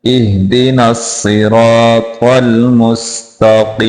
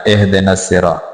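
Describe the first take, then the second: First: इहदिनस with clear "ih-dee", slowly intoned; slow tajweed reading from इहदिनस on; corrected recitation. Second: एहदिनस opening on "eh-de"; casual mispronounced एहदिनस; incorrect reading. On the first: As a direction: recite इहदिनस with pure long i. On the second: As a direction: say एहदिनस quickly with lax e vowels, unchanted. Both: Shown as a demonstration. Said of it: "जो कि दुरुस्त नहीं है".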